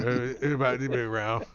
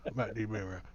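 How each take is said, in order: First: Quick slurred mumble; Boomhauer mumble. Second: Softer trailing mumble; Boomhauer mumble. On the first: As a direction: rattle it off unclearly. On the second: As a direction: let it fade into a mumble. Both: Acted. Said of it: "He talks like Boomhauer".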